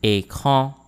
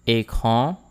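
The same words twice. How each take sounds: First: Écran modelled with closed é and French nasal an; careful pronunciation model. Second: Écran a touch quicker, rising at the end; a little faster. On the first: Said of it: "practice how to pronounce these words". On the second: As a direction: say Écran with a lifting tune. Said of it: "This time a little faster". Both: Shown as a demonstration.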